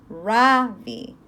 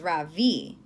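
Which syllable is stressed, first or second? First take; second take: first; second. First: The stress is on the first syllable. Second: The stress is on the second syllable. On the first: The teacher has been saying the name this way. The speaker calls it wrong. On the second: The boy himself says his name this way. The speaker calls it right.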